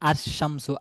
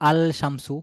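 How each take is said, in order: First: The l merges into a doubled sh sound. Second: The l is pronounced before the sh sound.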